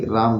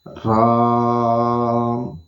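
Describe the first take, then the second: First: It is said quickly, in a rapid string. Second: It is said slowly and deliberately.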